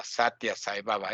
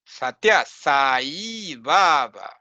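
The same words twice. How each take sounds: First: Satya Sai Baba run together, low and soft; common mispronunciation. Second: Satya Sai Baba slowly, long vowels drawn out; slow, careful Satya Sai Baba, sa-ee baa-baa; real Sanskrit pronunciation. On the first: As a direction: toss off Satya Sai Baba with short vowels. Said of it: "All the time they call". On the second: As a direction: say sat-YA, then stretch Sai Baba. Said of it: "This is the real way to pronounce". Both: Shown as a demonstration.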